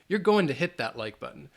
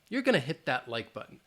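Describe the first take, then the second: First: Going to is said as two words, final g dropped. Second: Going to is reduced to gonna. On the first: "I would still drop that G" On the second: "say gonna"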